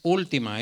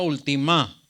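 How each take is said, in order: First: The stress is on the first syllable. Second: The stress is on the last syllable. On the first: The speaker calls it right. "Pero es última, es antepenúltima" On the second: The speaker calls it wrong. "Si fuera aquí diría"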